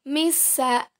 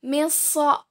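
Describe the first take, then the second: First: Misa ending in a light "sa"; letter sin. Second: Misa ending in a heavy "so"; letter sad. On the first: Teacher contrasts two letters for students, misa with light "sa". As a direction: say misa with thin S, open last vowel. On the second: Teacher contrasts two letters for students, Misa with heavy "so". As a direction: say Misa as "miso", emphatic S. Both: Shown as a demonstration. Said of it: "Perbandingan antara huruf so dan huruf sa".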